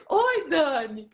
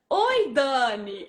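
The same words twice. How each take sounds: First: Slow drawn-out hello. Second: Quick hello. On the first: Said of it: "ela atendeu assim". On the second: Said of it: "Fala rápido, né?". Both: Retold or imitated.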